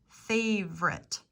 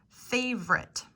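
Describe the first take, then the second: The two takes are said the same way.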